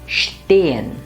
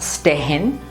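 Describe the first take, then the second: First: The word starts with a 'sht' sound. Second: The word starts with a plain 'st' sound. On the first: The speaker calls it right. "the pronunciation becomes shp or sht" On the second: The speaker calls it wrong. "and not"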